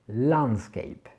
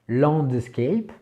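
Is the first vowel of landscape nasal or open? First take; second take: open; nasal. First: The first vowel is an open a sound. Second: The first vowel is a French nasal sound. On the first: The speaker calls it right. "c'est le son a" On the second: The speaker calls it wrong. "On a tendance à dire de landscape, mais non, c'est pas le son en"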